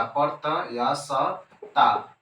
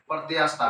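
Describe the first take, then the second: First: प्रत्यास्थता stretched syllable by syllable, very slow; drawn out slowly. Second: Said in the usual way. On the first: Shown as a demonstration. Teacher drilling प्रत्यास्थता for students, very slow and drawn out. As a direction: spell out प्रत्यास्थता slowly so the class can copy it. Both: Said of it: "समझ लेते हैं".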